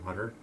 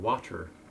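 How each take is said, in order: First: The middle consonant sounds like a soft D. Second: The middle consonant is a crisp T sound. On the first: The speaker calls it wrong. "not water" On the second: The speaker calls it right. "I should be saying water"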